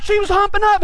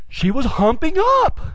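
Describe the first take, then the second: First: High, quick protest. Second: Slow insistence. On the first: Quick protest in retold argument. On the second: Slow insistence in retold argument. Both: Retold or imitated.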